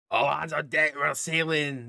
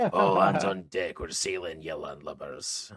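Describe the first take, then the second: First: Loud, raised call to the crew; sailor's shout. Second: Shouting sailor. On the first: Crew boss on the top deck calls everyone to sail, shouting. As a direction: shout orders across the deck. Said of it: "uh, shouts". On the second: Crew boss rallies the landlubbers to sail, hammed-up sailor shout. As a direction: bellow the order, then sink into a salty growl. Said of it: "I don't know what accent he's got". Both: Acted.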